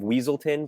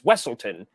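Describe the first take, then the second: First: The first syllable sounds like 'weez'. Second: The first syllable sounds like 'wess'. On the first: This is the mistaken name others use. The speaker calls it wrong. "they keep calling him the Duke of Weaselton" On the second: This is the name as the character insists. The speaker calls it right. "but he's like it's Wesselton"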